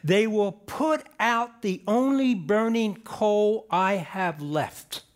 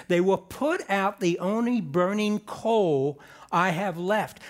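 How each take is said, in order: First: Said in the usual way. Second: Slowed, weighted reading of "They will put out the only burning coal"; slow emphatic reread. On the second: Shown as a demonstration. Preacher rereading the verse to the congregation, slow and weighty. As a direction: read it again slowly so it sinks in. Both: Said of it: "Let me say that again".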